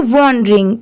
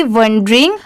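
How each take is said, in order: First: वॉन्डरिंग with a rounded "o" in the first syllable; "o" vowel. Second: वंडरिंग with "uh" in the first syllable; short "uh" vowel. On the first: Teacher contrasting two confused words, वॉन्डरिंग with an "o" sound. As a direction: say वॉन्डरिंग starting "von", for the letter O. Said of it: "यहाँ पर ओ की sound आएगी". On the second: Teacher showing learners the A word, वंडरिंग with an "uh" sound. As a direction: say वंडरिंग starting "vun", for the letter A. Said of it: "ए की sound अ की आएगी". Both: Shown as a demonstration.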